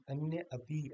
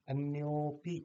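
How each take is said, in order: First: अन्य अपि with the अ sounded; two separate words. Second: अन्योपि with a drawn-out यो; अन्योपि as one word, dropped अ; joined long o. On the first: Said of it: "ऐसे बोला जाएगा वैसे तो". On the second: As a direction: hold the यो in अन्योपि, then पि. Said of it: "लंबा ले रहे हैं". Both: Shown as a demonstration.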